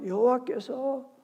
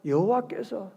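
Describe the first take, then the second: First: 여호와께서 drawn out slowly and raised in pitch; slow, higher, softly weighted 여호와께서; emphasis on 여호와께서. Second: Said in the usual way. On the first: Shown as a demonstration. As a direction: stretch 여호와께서 as the key word to mark. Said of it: "동그라미 쳐요".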